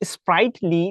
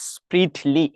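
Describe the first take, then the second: First: The first syllable has a long 'eye' vowel. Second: The first syllable has a short 'ih' vowel. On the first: The speaker calls it wrong. "স্প্রাইটলি না বলে" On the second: The speaker calls it right. "স্প্রিটলি বললে কিন্তু সবচাইতে better হবে"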